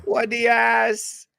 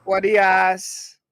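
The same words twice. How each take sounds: First: Higher, slow laughing mock Jamaican; hammed-up Jamaican accent. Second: Loud, slow mock Jamaican exclaim; drawn-out put-on Jamaican accent. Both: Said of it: "that's not a Jamaican accent".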